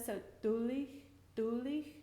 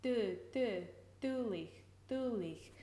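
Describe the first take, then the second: First: Dulich with the tongue tip pushed up behind the teeth. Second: Dulich with the tongue tip pushed out to the teeth. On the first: Gaelic teacher modelling the dulich sound. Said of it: "pushing up against the back of the teeth". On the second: Gaelic teacher modelling the other placement of dulich. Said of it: "I've heard". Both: Shown as a demonstration.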